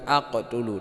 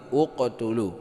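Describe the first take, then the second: First: The word begins with an a vowel. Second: The word begins with a u vowel. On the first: The speaker calls it wrong. "bukan aqtulu" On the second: The speaker calls it right. "ini dibaca dhammah berarti uqtulu"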